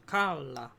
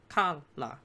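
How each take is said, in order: First: Kala broken before the final vowel, kal-a; split before vowel. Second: Ka, la broken before the l; ka, la syllable by syllable, the l opening the second; split before consonant. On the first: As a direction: say kala in two parts, loud kal, then a. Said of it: "divide syllables before a vowel". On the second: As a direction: say ka, la as two parts, loud ka, then la. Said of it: "non-initial syllables begin with a consonant". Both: Shown as a demonstration.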